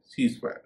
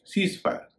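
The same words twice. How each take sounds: First: सीज fire with a z, as "seize fire"; the correct सीज fire, voiced z; correct pronunciation. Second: सीज fire with an s, as "sees fire"; the mistaken सीज fire, s not z; wrong pronunciation. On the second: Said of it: "सीज fire नहीं". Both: Shown as a demonstration.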